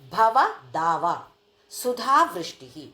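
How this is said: The phrase is split after bhava, then daava. Worldly life's heat, relieved by a rain of nectar. The speaker calls it right. "భవ అంటే ఈ సంసారం, దావ అంటే ఒక వేడి"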